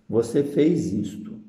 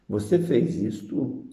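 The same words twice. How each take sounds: First: "Você fez isto" as a flat statement, falling on "fez"; declarative tune. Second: "Você fez isto" slow, stressing "você", with disappointment; disappointed exclamation. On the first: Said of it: "com ponto final". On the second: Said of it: "tem exclamação. Decepção". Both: Shown as a demonstration.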